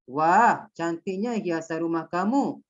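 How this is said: It is said conversationally, sounding amazed. The speaker calls it right. "Macam awak bercakaplah. ... merasakan perasaan kagum"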